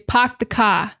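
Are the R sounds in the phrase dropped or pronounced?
dropped. The R sounds are dropped. This is the classic Boston way. "they say park the car"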